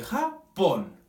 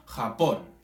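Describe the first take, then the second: First: "Japón" slowly split, landing on "pón"; drawn-out "Japón" with a separate, stressed "pón"; stress on final syllable. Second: Said in the usual way. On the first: Shown as a demonstration. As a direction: break "Japón" in two and lean on "pón". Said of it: "ponemos énfasis en el pon". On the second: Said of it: "Nosotros ponemos énfasis en el pon".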